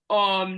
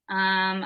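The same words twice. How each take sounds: First: The voice has an open, spacious resonance. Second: The voice has a small, narrow resonance. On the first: "now I have a lot more space" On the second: "have it at a certain pitch"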